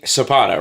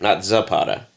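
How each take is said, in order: First: The name begins with an S sound. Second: The name begins with a Z sound. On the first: The speaker calls it right. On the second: The speaker calls it wrong.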